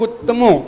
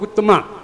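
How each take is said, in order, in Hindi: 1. शब्द 'o' स्वर पर समाप्त होता है। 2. शब्द 'a' स्वर पर समाप्त होता है। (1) "ऐसा नहीं बोल करके" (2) "लोग ... ऐसा बोल देते हैं"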